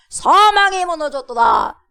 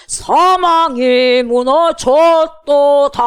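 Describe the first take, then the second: First: High, loud spoken declaration; proclaiming. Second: Slow, high, very loud singing; sung, belt it out on long notes; sung praise. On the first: Acted. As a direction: shout it as a victory proclamation. Proclaims the lyric to congregation. (크고 높게 외치는 선포) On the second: Shown as a demonstration. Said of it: "뭐라 그래?". (sung, 크고 길게 부르는 승리의 찬양)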